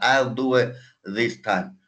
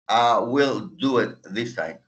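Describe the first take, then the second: First: 'Will' is shortened and joined to 'I'. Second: 'Will' is said as a separate full word. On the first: "Que se oiga esa I y la L junta" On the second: "Es lo mismo que usted dice I will do it this time"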